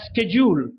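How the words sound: It begins with a 'sk' sound.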